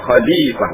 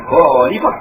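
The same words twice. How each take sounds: First: Khalifah with a throaty kh; teacher giving the right Khalifah; correct Khalifah. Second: Khalifah with a k and an o sound, the mistake; teacher marking khalifah as wrong. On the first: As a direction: say Khalifah with the Arabic kh. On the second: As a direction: show khalifah as misread. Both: Shown as a demonstration. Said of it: "bukan khalifah".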